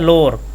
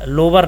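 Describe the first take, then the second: First: It sounds like 'low' followed by 'er'. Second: It does not begin like the word 'low'. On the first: The speaker calls it right. "जब आप लो कहेंगे तो लो की spelling होती है L O W, अब last में जुड़ा है E R" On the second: The speaker calls it wrong. "नहीं कहते हैं"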